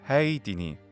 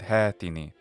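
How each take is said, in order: First: The first vowel ends with an i-glide. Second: The first vowel is plain with no glide.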